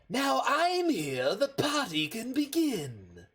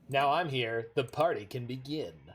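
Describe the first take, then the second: First: It is read in a Joker-like voice. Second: It is read in a plain voice.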